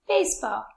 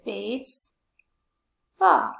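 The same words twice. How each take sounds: First: Said in the usual way. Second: BASEBALL very slowly, long gap between "base" and "ball"; syllable by syllable. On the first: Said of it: "Baseball has two syllables". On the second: Shown as a demonstration. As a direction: break BASEBALL into two stretched syllables. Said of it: "It's two".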